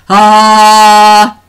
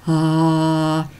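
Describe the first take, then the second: First: The sound is low and loud. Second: The sound is low and soft.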